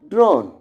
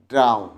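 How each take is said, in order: First: The vowel sounds like 'oh'. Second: The vowel sounds like 'ow'. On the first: The speaker calls it wrong. "most of us make the sound or pronounce the word drone" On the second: The speaker calls it right. "But it is drown. The symbol tells drown. D R A U N"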